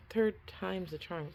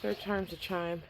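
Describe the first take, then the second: First: Second try through numb lips; struggling to shape words, cold mouth; frozen mouth. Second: Stiff, numb lips from the cold; words mushed by a frozen mouth. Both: Real, not acted. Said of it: "my mouth is frozen".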